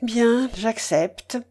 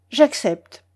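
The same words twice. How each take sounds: First: Slow, resigned consent; sighing acceptance. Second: Louder, decisive falling delivery; supply the answer firmly, at normal pace; insistent prompt. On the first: A narrator's reading. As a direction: give in at half speed, as with a sigh. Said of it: "dit Sanine avec un soupir". (acceptation lente, dans un soupir) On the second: Acted. Prompting him to say it. (ton pressant et décidé)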